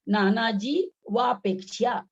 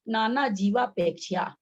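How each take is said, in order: First: The second word is split after jee. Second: The second word is said as one unit. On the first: The speaker calls it wrong. "ऐसा उच्चारण नहीं होगा" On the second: The speaker calls it right. "यहाँ उच्चारण क्या हो जाएगा"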